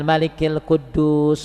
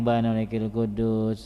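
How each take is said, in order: First: The phrase is said clearly and audibly. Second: The phrase is mumbled quietly and indistinctly. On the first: The speaker calls it right. "Harusnya agak" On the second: The speaker calls it wrong. "kayak yang gumam"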